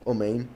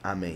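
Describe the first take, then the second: First: The first vowel sounds like 'oh'. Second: The first vowel sounds like 'ah'. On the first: The speaker calls it wrong. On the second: The speaker calls it right. "los sefardim amén"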